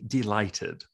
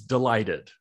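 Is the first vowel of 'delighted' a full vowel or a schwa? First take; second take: full vowel; schwa. First: The first syllable has a full, clear vowel. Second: The first syllable has a weak schwa vowel. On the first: "I have to say it that way" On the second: "the first syllable is a schwa"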